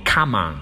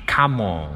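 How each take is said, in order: First: "come on" with an open "ah" in "on"; American "come on". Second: "come on" with a rounded "aw" in "on"; British-style "come on". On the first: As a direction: open the mouth wide on "on" in "come on". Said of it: "我建议大家读成那个on". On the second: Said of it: "也不要发成come on啊". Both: Shown as a demonstration.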